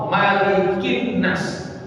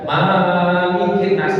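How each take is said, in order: First: The first vowel is short. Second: The first vowel is long. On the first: It means king of mankind. The speaker calls it right. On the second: It likens him to a material master of mankind. The speaker calls it wrong.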